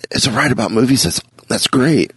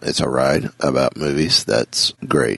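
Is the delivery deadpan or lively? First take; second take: lively; deadpan. First: It is said with lively, varied pitch. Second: It is said in a flat, monotone voice. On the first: "Instead of" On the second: "one of the most deadpan, monotone voices"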